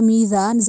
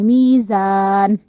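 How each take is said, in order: First: The z sound is soft and light. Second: The z sound is hard and heavy. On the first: The speaker calls it wrong. "नरमी से अदा नहीं करना, मीज़ा नहीं कहना या मीज़ान, जाल की अदायगी नहीं देनी" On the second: The speaker calls it right. "जा को सख्ती से पढ़ना है"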